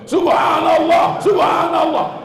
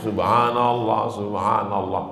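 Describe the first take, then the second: First: It is shouted very loudly, as if raging. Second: It is said audibly but at moderate volume.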